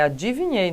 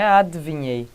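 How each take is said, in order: First: Said in the usual way. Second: "adivinhei" squeezed to "adv-inhei", the i after d dropped; lower, mock-wrong "adivinhei" without the first i; wrong pronunciation. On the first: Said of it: "Ó, é adivinhei". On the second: Shown as a demonstration. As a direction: say "adivinhei" as "adviɲei", skipping the syllable. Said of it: "não é adivinhei".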